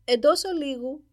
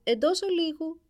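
First: Loud, higher call of «Εντός ολίγου» from behind a door; prince's voice from the ice. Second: Loud, higher call of «Εντός ολίγου», stress on ολίγου; prince's voice again. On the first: Ice on the window answers the courtiers, calling out loud. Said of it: "με τη φωνή του πρίγκιπα". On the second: Ice answers the knocking courtiers, calling out loud. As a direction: call it out again from inside the room. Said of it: "ακούστηκε ... η φωνή του πρίγκιπα". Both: A narrator's reading.

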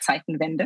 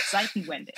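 First: Zeitenwende said the German way, ts at the start; German pronunciation. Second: Zeitenwende said the English way, starting with an s sound; anglicised pronunciation. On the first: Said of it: "we say Zeitenwende". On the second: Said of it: "I did it as well". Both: Shown as a demonstration.

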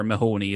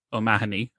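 First: Mahoney without the O, the American way; American pronunciation. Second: O'Mahony with the full Irish O-prefix; Irish name said properly. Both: Shown as a demonstration. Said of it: "as, uh, some people in America call him".

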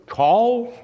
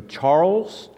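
First: Mock German accent, pitched high and rising. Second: Said in the usual way. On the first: Pastor imitates his neighbor calling him, German accent. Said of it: "Is that a good German accent?". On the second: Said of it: "my neighbor Jan said to me".

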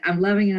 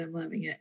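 First: Said in the usual way. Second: Much softer, trailing away; faded to a near-whisper. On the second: Real, not acted. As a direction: let it fade to almost nothing. Repeats phrase, fading out.

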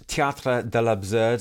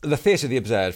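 First: Théâtre de l'Absurde in a French accent; French pronunciation. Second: Said in the usual way. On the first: Shown as a demonstration. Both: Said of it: "sorry about my French accent".

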